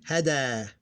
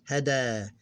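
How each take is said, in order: Both takes have the same delivery.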